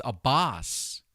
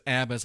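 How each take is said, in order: First: Abbas said like "a boss"; alternative pronunciation. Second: Abbas said as "AB-us"; Candace's pronunciation. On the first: Shown as a demonstration. Host giving the mother's maiden name, Abbas pronounced "a-BOSS". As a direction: stress the second syllable of Abbas, as "a-BOSS". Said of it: "Candace says Abbas, I think it might". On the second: Retold or imitated. Host quoting how Candace says it, Abbas pronounced "AB-us". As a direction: stress the first syllable of Abbas, short second one. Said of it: "Candace says Abbas".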